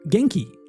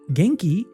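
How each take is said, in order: First: The voice falls at the end. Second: The voice rises at the end.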